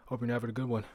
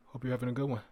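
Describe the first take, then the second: No difference in how they are said.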